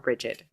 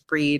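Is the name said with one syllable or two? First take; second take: two; one. First: The name is said as two syllables. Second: The name is said as one syllable. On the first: "breed or Bridget" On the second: "it was pronounced breed"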